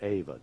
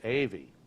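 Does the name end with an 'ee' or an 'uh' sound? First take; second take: uh; ee. First: The name ends with an 'uh' sound. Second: The name ends with an 'ee' sound. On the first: This is how outsiders say it. The speaker calls it wrong. "Now you might call it Ava" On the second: This is how locals say it. The speaker calls it right. "they call it Avy. It's not Ava"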